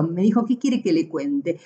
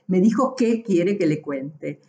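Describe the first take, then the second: First: "¿qué" stressed with a rising question at the end; question tune. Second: Said in the usual way. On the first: Shown as a demonstration. Teacher showing the accented "qué" as a question. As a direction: ask it as a real question. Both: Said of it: "ese acento".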